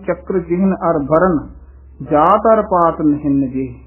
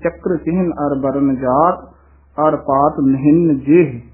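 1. ਵਿਸਰਾਮ ਕਿਤੇ ਹੋਰ ਆਉਂਦਾ ਹੈ, jaat ਤੋਂ ਬਾਅਦ ਨਹੀਂ। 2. ਮੁੱਖ ਵਿਸਰਾਮ ਸਿੱਧਾ jaat ਤੋਂ ਬਾਅਦ ਆਉਂਦਾ ਹੈ। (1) "ਇਹ ਵਿਸਰਾਮ ਨਹੀਂ ਲਾਉਣਾ" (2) "ਮੁੱਖ ਇਹੀ ਵਿਸਰਾਮ ਹੈ"

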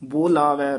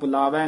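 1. ਪਹਿਲਾ ਸਵਰ ਲੰਮੀ 'o' ਦੀ ਆਵਾਜ਼ ਹੈ। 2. ਪਹਿਲਾ ਸਵਰ ਛੋਟੀ 'u' ਦੀ ਆਵਾਜ਼ ਹੈ। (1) "ਬੋਲਾਵੈ ਬੱਬੇ ਦੇ ਹੋੜੇ ਦੀਰਘ ਉਚਾਰਨ ਕਰਨਾ" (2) "ਬੁਲਾਵੈ ਨੀ ਕਹਿਣਾ"

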